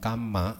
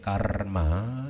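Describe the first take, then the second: First: No r sound is said before the m. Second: An r sound is said before the m. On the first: This is the Pali form. "bukan kama" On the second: This is the Sanskrit form. "Kalau saya melafalkannya sebagai karma"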